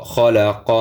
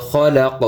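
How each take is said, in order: First: খলাক carried on to an open a after the q; full final vowel. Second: খলাক closed on the q with no vowel; stopped ending. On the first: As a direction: end খলাক on a short a. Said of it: "অকফ করলে খলাক". (খলাক-এর শেষে জবর উচ্চারণ) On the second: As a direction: stop dead on the q of খলাক. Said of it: "অকফ করলে". (খলাক-এ থেমে শেষের জবর বাদ) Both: Shown as a demonstration.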